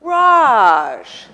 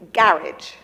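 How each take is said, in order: First: The stress is on the second syllable. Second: The stress is on the first syllable. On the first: "And now we have garage" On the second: "in England, that is a garage"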